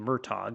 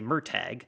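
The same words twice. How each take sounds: First: It is said with a more Irish pronunciation. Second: It is said with flat American vowels.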